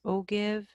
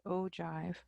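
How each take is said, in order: First: "ogive" read as spelled, with a hard g: oh-give; mispronounced ogive. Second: "ogive" with a soft g: OH-jive; correct ogive pronunciation. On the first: Teacher showing students the wrong way, "ogive" as oh-give with hard g. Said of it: "It's not pronounced ogive". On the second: Teacher showing students the accepted way, "ogive" as OH-jive with soft g. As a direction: say "ogive" as oh-jive, rhyming with five. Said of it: "they pronounce it ogive". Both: Shown as a demonstration.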